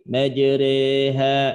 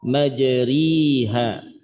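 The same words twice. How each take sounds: First: The vowel after r is a slightly fronted a. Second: The vowel after r is a clear i. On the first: "tidak dibaca dengan taklil" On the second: "tidak dibaca dengan kasroh"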